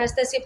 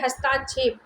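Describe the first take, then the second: First: हस्तक्षेप with a short "ta"; correct pronunciation. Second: हस्ताक्षेप with a long "taa"; incorrect form. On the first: Teacher giving the correct word, short-vowel pronunciation of हस्तक्षेप. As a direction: say हस्तक्षेप as "hast-uh-kshep". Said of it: "हस्तक्षेप तो शुद्ध शब्द है". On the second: Teacher showing the added vowel mark, long-vowel mispronunciation of हस्ताक्षेप. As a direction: say हस्ताक्षेप as "has-taa-kshep". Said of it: "अशुद्ध शब्द हो जाएगा". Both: Shown as a demonstration.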